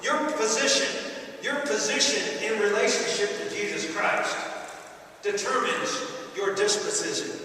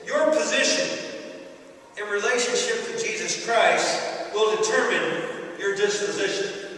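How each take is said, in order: First: Your position, repeated with weight; measured pulpit restatement; restated key line. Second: Weighty preached thesis; stressed key line. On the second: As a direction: lean on YOUR and position. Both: Shown as a demonstration. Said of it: "I want to say it one more time".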